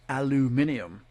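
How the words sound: It is said the British way, with five syllables. The speaker calls it right. "the extra I right there, it is technically aluminium"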